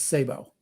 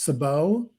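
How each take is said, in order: First: The word is said the American military way. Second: The word is said the French way. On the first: "U S military pronounces it as Sabo" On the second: "the p- correct pronunciation of the word is Sabo"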